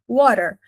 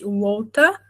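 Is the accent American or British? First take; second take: American; British. First: It is said in an American accent. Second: It is said in a British accent. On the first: "Na pronúncia americana" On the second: "Na pronúncia britânica"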